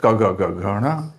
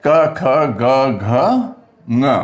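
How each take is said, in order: First: "घड़ा" ending with a ड़ा instead of nasal ङ; learners' slip, "घड़ा" for घ-ङ; common mispronunciation. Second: Slow, drawn-out letters, then a short nasal "ङ"; "ङ" as a short ng, set apart; careful pronunciation. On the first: Retold or imitated. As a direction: recite the row, running the last letter into a flapped "घड़ा". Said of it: "तीनों को अड़ा इड़ा बोलते हैं". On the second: Shown as a demonstration. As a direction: stretch each letter and end on a separate nasal "ङ". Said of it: "अगर ऐसे करें".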